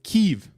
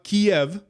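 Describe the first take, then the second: First: The name is said the Ukrainian way, Kyiv. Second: The name is said the Russian way, Kiev. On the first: It follows the Ukrainian name. The speaker calls it right. "which is how you're, I believe, how uh, the pronunciation is" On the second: It follows the Russian name. The speaker calls it wrong. "It's not Kiev"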